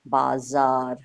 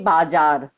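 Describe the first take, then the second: First: The middle consonant is a z sound. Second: The middle consonant is a j sound. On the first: The speaker calls it right. "होता क्या होना चाहिए?" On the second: The speaker calls it wrong. "अगर नुक्ता का प्रयोग नहीं किया जाएगा तो उस शब्द को कैसे मैं पढ़ूंगी?"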